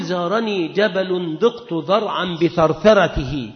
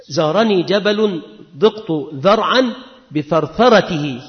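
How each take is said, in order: First: Slow, measured recitation of the verse; slow recital. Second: Said in the usual way. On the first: Shown as a demonstration. Teacher recites the example verse to students, slowly. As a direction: let each word of the line land slowly. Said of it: "تقول". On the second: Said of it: "كما قال بعض الأدباء".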